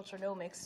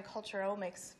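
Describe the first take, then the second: First: "culturenomics" said with an added n before "omics"; "culturenomics" ending like economics; alternative pronunciation. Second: "culturomics" said without an n before "omics"; "culturomics" running straight from culture into omics; variant pronunciation. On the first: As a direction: say "culturenomics" as culture-NOM-ics. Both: Shown as a demonstration. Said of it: "depending on how you say it".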